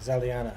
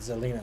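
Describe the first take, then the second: First: The name is said with four syllables. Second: The name is said with three syllables. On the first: The speaker calls it right. "I've been saying it wrong" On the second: The speaker calls it wrong. "I said Zelina, sorry"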